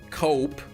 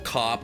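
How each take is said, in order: First: The vowel is a long 'o' as in 'cope'. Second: The vowel is a short 'o' as in 'cop'.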